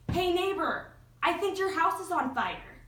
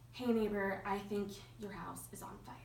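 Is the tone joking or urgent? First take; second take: urgent; joking. First: It is said in an urgent, alarmed tone. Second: It is said in a light, joking tone. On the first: It is a real warning of danger. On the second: It is a playful jab, not a real warning.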